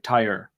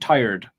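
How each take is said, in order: First: The final D sound is dropped. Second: The final D sound is pronounced. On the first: The speaker calls it wrong. "you'll just say tire and not pronounce the D at the end" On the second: The speaker calls it right. "there's a D sound at the end"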